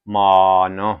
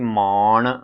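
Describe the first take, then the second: First: The word ends in a dental n sound. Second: The word ends in a retroflex n sound. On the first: The speaker calls it right. "ਨੰਨਾ ਲਗਾਉਣਾ ਹੈ" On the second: The speaker calls it wrong. "ਮਾਣ ਨਹੀਂ ਕਹਿਣਾ, ਨਾਣਾ ਨਹੀਂ ਲਗਾਉਣਾ ਹੈ"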